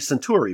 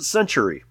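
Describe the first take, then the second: First: The name sounds like the star name Centauri. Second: The name sounds like the word century. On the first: This is how outsiders usually say the name. The speaker calls it wrong. "we pronounce the name of the company Centauri because, Alpha Centauri in the night sky" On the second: This is how the company itself says the name. The speaker calls it right. "according to one of the programmers from the company, they pronounce it Century"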